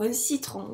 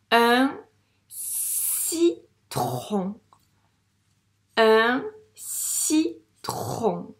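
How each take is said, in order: First: Said in the usual way. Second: "citron" very slow, split as ssi, tron; syllable by syllable. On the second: Shown as a demonstration. Teacher correcting reading, "citron" split slowly in syllables. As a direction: sound out "citron" with long s and rolled-out tron. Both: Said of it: "la première syllabe correspond à".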